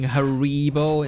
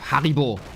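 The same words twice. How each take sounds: First: It is said with a non-German pronunciation. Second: It is said with a German pronunciation. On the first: The speaker calls it wrong. "a TikTok saying Haribo" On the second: The speaker calls it right. "proper German pronunciation"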